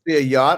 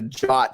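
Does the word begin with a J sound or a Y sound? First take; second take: Y sound; J sound. First: The word begins with a Y sound. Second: The word begins with a J sound. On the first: "Is it a yacht" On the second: "or is it a jot? ... We flip them around"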